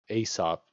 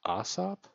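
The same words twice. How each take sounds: First: The first vowel is not an 'ah' sound. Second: The first vowel is an 'ah' sound. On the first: The speaker calls it wrong. "So it's not Aesop" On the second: The speaker calls it right. "I think it would be Aesop, but that's really weird to say"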